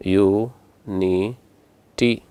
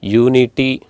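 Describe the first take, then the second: First: ಯೂನಿಟಿ as three slow separate beats, yu, ni, ti; split into syllables. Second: Said in the usual way. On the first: Shown as a demonstration. Teacher splitting ಯೂನಿಟಿ for the class, slowly syllable by syllable. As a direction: say ಯೂನಿಟಿ syllable by syllable with long gaps. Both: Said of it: "split ಮಾಡಿ".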